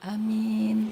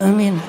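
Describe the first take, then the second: First: The word is said softly and gently. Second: The word is blurted unclearly like a burp. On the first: The speaker calls it right. "Aminnya lembut gitu" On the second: The speaker calls it wrong. "sendawa. Amin nggak jelas"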